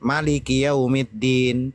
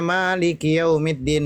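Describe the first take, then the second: First: The vowel after the m is short. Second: The vowel after the m is long. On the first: "tidak dipanjangkan" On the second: "mimnya dipanjangkan"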